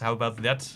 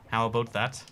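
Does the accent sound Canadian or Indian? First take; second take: Indian; Canadian. First: It is said in an Indian-sounding accent. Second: It is said in a Canadian accent. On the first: "this is not Canadian. I don't know why it's gone Indian again" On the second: "they say like boat instead of about"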